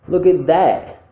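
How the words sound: The final word 'that' is strong and stressed. "Now let's make it stressed"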